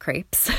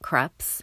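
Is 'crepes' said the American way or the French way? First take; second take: American; French. First: It is said with the American pronunciation. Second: It is said with the French pronunciation. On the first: "also pronounced crepes. The United States" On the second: "I adhere to the French pronunciation"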